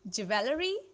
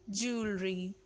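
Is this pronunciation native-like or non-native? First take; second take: non-native; native-like. First: It is said in a non-native way. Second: It is said in a native-like way. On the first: The speaker calls it wrong. "how you pronounce it" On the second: The speaker calls it right.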